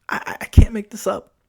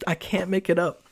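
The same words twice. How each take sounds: First: Stammered, breathy whisper; whispered aside. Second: Said in the usual way. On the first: Real, not acted. Driver swearing to listeners the story is true, whispering. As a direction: lean in and whisper it like a secret.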